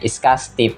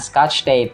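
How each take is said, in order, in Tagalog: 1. Ito ay binibigkas sa Filipino English accent. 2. Ito ay binibigkas sa standard English accent. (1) "yun nga" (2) "imbes na"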